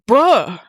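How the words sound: It is said in a surprised tone. The speaker did not expect this.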